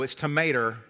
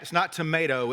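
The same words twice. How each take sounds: First: Tomato said the Southern way, drawled; tomato the North Carolina way. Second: Tomato said the Northern way; plain tomato with a long a. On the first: Preacher giving his home pronunciation of tomato. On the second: Preacher mocking how outsiders say tomato. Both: Shown as a demonstration. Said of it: "it's not tomato, it's tomato".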